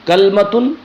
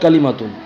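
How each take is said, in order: First: It starts 'kal' with no vowel after the l. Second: It starts 'ka' with a vowel after the l. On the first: "यानी इसमें तीन लुगत हैं" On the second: "सबसे बेहतर और फसीह जो तरीका है वो है कलीमतुन"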